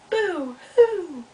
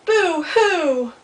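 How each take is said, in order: First: High boo-hoo echoing back; echo of crying. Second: High, loud wailed boo-hoo; loud mock crying. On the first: Acted. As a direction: send the wail back like an echo across a pond. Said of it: "Little Beaver heard something". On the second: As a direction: wail it out like an upset storybook beaver. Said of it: "it gets louder and louder and louder".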